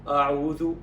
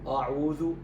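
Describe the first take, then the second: First: The opening sound is heavy and thick. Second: The same.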